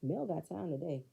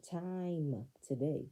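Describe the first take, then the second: First: Said in the usual way. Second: "Time" stretched long and slow; slow, savoring repeat of "Time today"; drawn-out emphasis. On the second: Real, not acted. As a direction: linger on "Time" before "today".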